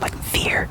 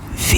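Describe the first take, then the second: First: The word ends with a clear 'er' sound. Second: The word ends without a clear 'er' sound. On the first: "But in Dutch, you say vier, vier, with that er, er sound" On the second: "versus uh"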